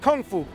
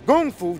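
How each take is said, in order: First: It is pronounced the Cantonese way, Kung Fu. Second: It is pronounced the Mandarin way, Gung Fu.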